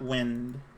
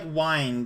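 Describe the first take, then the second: First: The vowel is short, rhyming with win. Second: The vowel is long, rhyming with blind. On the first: It means the moving air outside. "and not wind" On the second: It means to turn or coil something. "It's going for like wind"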